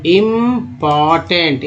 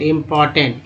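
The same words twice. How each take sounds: First: "important" drawn out syllable by syllable; slow syllable demo. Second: Said in the usual way. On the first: Shown as a demonstration. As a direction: stretch each part of "important". शब्द धीरे तोड़कर पढ़ाना. ("Important" खींचकर, धीरे-धीरे)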